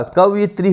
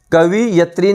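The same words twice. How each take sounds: First: कवयित्री as kav-yi-tri; correct कवयित्री. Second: कवि यत्री split as kavi-yatri; mispronounced कवि यत्री. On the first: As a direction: say कवयित्री with "yit" in place of "yat". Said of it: "कवयित्री होता है". (कवयित्री में 'यि' बोलें) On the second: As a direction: say कवि यत्री with a clear "vi" then "yat". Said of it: "कवि यत्री नहीं होता". (कवि यत्री को दो टुकड़ों में बोलें) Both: Shown as a demonstration.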